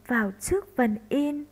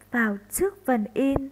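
The two takes are said the same way.

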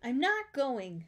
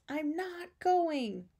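First: Slow, higher, emphatic refusal; firm refusal. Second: Very slow, drawn-out, high refusal; stubborn refusal. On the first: Arthur tells his parents about camp, firmly refusing. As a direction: refuse with weight on each word. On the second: Arthur answers his coaxing parents about camp, stubbornly drawn out. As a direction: stretch every word and dig your heels in. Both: A narrator's reading.

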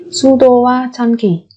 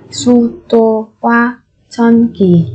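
First: Said in the usual way. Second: Syllable by syllable. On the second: Shown as a demonstration. Teacher models word syllable by syllable.

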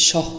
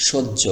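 First: সহ read letter by letter with a plain h sound; wrong pronunciation. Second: সহ্য said as shojjo, doubled j and no h; correct pronunciation. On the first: Teacher showing learners the wrong reading সহ with an h. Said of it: "বলেন, তাহলে কিন্তু সঠিক হবে না". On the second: Teacher showing learners the right reading সহ্য as shojjo. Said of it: "এটাকে সহ্য উচ্চারণ করতে হবে". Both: Shown as a demonstration.

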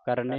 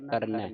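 First: ਕਰਨੈ ending in a close "e"; wrong vowel ending. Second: ਕਰਨੈ ending in an open "ai"; open vowel ending. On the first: Teacher warns off this reading, ਕਰਨੈ with close "e". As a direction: say ਕਰਨੈ as "karnay". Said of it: "ਕਰਨੈ ਨਹੀਂ ਪੜ੍ਹਨਾ". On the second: Teacher points to the vowel mark, ਕਰਨੈ with open "ai". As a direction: say ਕਰਨੈ as "karneh". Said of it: "ਨੰਨੇ ਨੂੰ ਦਲਾਵਾਂ ਲੱਗੀਆਂ". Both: Shown as a demonstration.

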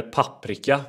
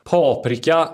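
First: "paprika" with a short first A; variant pronunciation. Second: "Paprika" with a long first A; variant pronunciation. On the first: Host offers rival pronunciations, short-A "paprika". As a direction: say "paprika" as PAPP-rika. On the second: Host offers rival pronunciations, long-A "Paprika". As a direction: say "Paprika" as PAA-prika. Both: Shown as a demonstration. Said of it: "Paprika eller paprika?".

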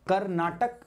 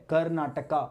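First: कर्नाटक with a short final k, Hindi style; Hindi Karnataka. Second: कर्नाटका with a long a at the end, English style; English Karnataka. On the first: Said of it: "कर्नाटका नहीं". (हिंदी वाला उच्चारण कर्नाटक) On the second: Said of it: "कर्नाटका is basically in the English". (अंग्रेज़ी वाला उच्चारण कर्नाटका) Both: Shown as a demonstration.

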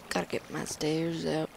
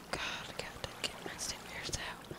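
First: Said in the usual way. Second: Whispered under breath; whispering. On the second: Real, not acted. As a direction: whisper it to yourself. Repeats line then whispers it.

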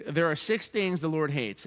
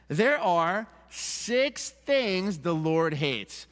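First: Said in the usual way. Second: Very slow and weighty, landing on "hates"; emphatic scripture reading. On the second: Shown as a demonstration. Pastor reads God's list to the congregation, slow stress on "hates". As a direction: set each word apart, slowly, through to "hates". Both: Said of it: "With emphasis on that word hate".

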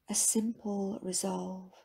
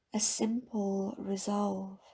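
No difference in how they are said.

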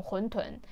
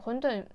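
First: 混沌 as húntun, aspirated t; correct pronunciation. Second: 混沌 as húndùn, no puff on the d; wrong pronunciation. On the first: Teacher giving the correct form, 混沌 said húntun. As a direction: say 混沌 with a puffed t. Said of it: "正しい発音". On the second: Teacher contrasting the everyday mistake, 混沌 said húndùn. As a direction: say 混沌 with unaspirated d. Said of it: "間違ってる発音で". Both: Shown as a demonstration.

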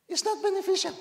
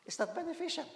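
First: "not" hit hard, high and loud; loud emphatic repeat. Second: Said in the usual way. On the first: Shown as a demonstration. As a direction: hammer the point home the second time.

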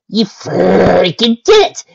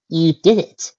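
First: Louder, slow, emphatic praise; excited. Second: Said in the usual way. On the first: Real, not acted. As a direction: build it up into loud delight.

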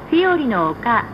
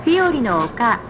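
The two takes are said the same way.

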